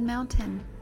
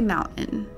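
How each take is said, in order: First: The middle T sound is clearly pronounced. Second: The middle T sound is dropped. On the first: This is an unusual, careful way for the speaker. "Today, I said mountain" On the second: This is the speaker's usual regional way. "I rarely enunciate my T's. I always say mountain"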